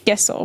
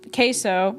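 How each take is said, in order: First: The word has a native Spanish pronunciation. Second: The word has an American English pronunciation. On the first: The speaker calls it right. "It's queso" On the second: The speaker calls it wrong.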